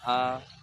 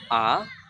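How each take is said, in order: First: The pitch stays high and level. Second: The pitch rises from mid to high. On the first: "ada datar gini" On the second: "ada naik garis"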